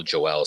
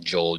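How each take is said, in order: First: "Joel" said wrongly as two syllables, Jo-el; mispronounced name. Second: Said in the usual way. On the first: Retold or imitated. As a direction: split "Joel" into Jo-EL. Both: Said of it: "you kept calling Joel Joel".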